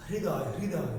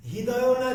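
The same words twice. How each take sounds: First: হৃদয় said as "riday", h and r blended together; the right way, হৃদয় with r touching h; correct pronunciation. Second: হৃদয় said as "hidayon", with a plain h sound; the wrong way, হৃদয় with h and no r; wrong pronunciation. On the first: (সঠিক উচ্চারণ, হৃদয় "রিদয়" বলা) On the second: (ভুল উচ্চারণ, হৃদয় "হিদয়" বলা) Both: Shown as a demonstration.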